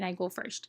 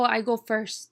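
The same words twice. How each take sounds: First: It is said in a standard mainstream pronunciation. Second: It is said in a regional dialect pronunciation. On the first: "instead of saying" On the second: "they'll talk like maybe they'll, oh"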